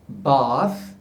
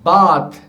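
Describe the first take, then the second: First: The th is an English-style soft fricative. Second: The th is a Hindi-style dental stop. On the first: The speaker calls it right. "should be" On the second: The speaker calls it wrong. "using our th sound"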